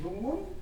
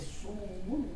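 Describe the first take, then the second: First: The word begins with a d sound. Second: The word begins with a z sound. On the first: This is the Pehuenche dialect form. "el pehuenche nosotros decimos con D" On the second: This is another dialect's form. "por la variable dialectal, se dice sumumun con Z"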